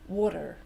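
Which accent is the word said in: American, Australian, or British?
American. A d-like t, and a sounded final r. "they change the T to a D, like us, but they do say the R sound"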